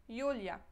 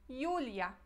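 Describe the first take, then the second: No difference in how they are said.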